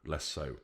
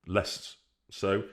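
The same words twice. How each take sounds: First: Less so said much softer and lower, trailing off; quieter repeat. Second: Said in the usual way. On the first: Shown as a demonstration. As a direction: drop the repeat to a murmur. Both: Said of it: "repeated comparison".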